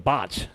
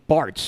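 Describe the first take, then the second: First: It is said with a Boston accent, no r. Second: It is said plainly, with the r sounded.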